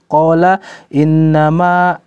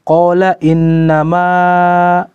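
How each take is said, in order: No difference in how they are said.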